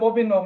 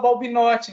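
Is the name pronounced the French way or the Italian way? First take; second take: French; Italian. First: The name is pronounced the French way. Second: The name is pronounced the Italian way. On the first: The name comes from French origin. "Porque é de origem francesa, então Balbinot" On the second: The family came from Italy. "como a gente veio da Itália... aí fala Balbinotti"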